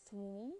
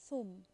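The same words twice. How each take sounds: First: Thum with a long oo, rising; long vowel. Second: Thum with a short u, falling; short vowel. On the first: Teacher rereading for learners, Thum with long vowel. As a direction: hold the oo in Thum. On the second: Teacher rereading for learners, thum with short vowel. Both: Shown as a demonstration. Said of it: "Can you hear the difference?".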